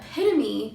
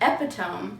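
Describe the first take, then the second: First: It is said with four syllables, e-PIT-o-me. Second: It is said with three syllables, EPI-tome. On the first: The speaker calls it right. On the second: The speaker calls it wrong.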